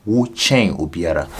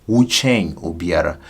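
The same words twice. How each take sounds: Both takes have the same delivery.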